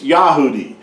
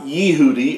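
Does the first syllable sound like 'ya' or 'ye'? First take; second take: ya; ye. First: The first syllable is said as 'ya'. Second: The first syllable is said as 'ye'. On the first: The speaker calls it right. "it's Yahudi" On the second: The speaker calls it wrong. "Yahudi is not Yehudi"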